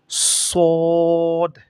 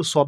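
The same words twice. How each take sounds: First: "সদ" with rounded, long held vowel; demonstrated Arabic letter. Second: Said in the usual way. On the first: Shown as a demonstration. Teacher models the letter, long rounded "সদ". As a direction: round and stretch "সদ", closing on the d. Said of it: "এটা এইভাবে উচ্চারণ করতে হবে". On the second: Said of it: "শুধু সদ বললে হবে না".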